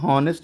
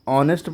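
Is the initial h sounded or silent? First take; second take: sounded; silent. First: The word starts with an audible h sound. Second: The word starts with a vowel, no h. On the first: The speaker calls it wrong. "हॉनेस्ट नहीं पढ़ते हैं" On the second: The speaker calls it right. "अब इसको ऑनेस्ट पढ़ते हैं"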